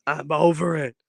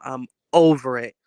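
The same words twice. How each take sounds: First: A strained, whiny moan; whiny fed up. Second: Firm, fed-up complaint with a falling end, a bit louder; over it, put it down with a drop. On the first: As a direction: complain like the cold has worn you out. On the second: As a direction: done with being sick, said flatly. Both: Real, not acted. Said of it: "I'm so over this cold".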